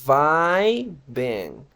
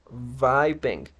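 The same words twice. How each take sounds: First: "vibing" drawn out slowly, loud VAAAI then beng; exaggerated pronunciation demo. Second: "vibing" as a connected VAI-beng; pronunciation demo. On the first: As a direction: stretch the first I of "vibing" into a long AI, then beng. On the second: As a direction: say "vibing" evenly, AI first and E second. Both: Shown as a demonstration. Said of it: "Escuchen bien".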